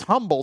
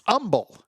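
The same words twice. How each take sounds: First: Humble with the H sounded, HUM-bəl; out-of-towners' Humble, HUM-bəl; outsiders' pronunciation. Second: Humble without the H, UM-bəl; dropped H. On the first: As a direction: say Humble with a breathed H at the start. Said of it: "people from out of town". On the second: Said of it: "drop every H". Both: Shown as a demonstration.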